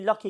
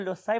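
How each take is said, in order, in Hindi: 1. c का उच्चारण k की आवाज़ जैसा होता है। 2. c का उच्चारण s की आवाज़ जैसा होता है। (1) "अगर आप इसे के की आवाज बोलेंगे तो फिर ये लॉकी कहलाएगा" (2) "अगर आप इसे सी बोलेंगे तो लोसाई बोला जाएगा"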